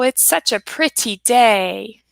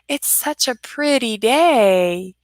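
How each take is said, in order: First: Pretty has a harsh T sound. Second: Pretty has a soft D sound. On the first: The speaker calls it wrong. "It's not that harsh T sound" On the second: The speaker calls it right. "but a softer D"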